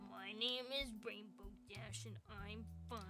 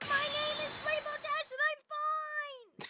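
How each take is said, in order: First: It is said quietly, without shouting. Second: It is screamed very loudly.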